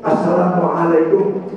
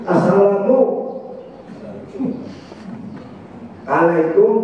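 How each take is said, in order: First: The greeting flows as one connected word. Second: The greeting is split with a break inside. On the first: The speaker calls it right. "bacanya mesti nyambung" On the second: The speaker calls it wrong. "Gak boleh begini"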